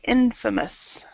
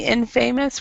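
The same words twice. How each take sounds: First: The stress is on the first syllable. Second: The stress is on the second syllable. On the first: The speaker calls it right. "we're stressing the the first syllable in" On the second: The speaker calls it wrong. "instead of saying infamous"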